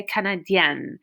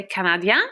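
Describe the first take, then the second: First: Canadienne ending in a held, sounded N; feminine pronunciation. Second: Canadien ending in a nasal vowel, silent N; masculine pronunciation. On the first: Teacher gives the girl's word, canadienne with sounded N. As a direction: finish canadienne on a clear "-yenn". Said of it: "if you're a girl". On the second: Teacher gives the boy's word, canadien with silent N. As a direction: stop canadien before the N sounds. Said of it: "if you're a boy". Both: Shown as a demonstration.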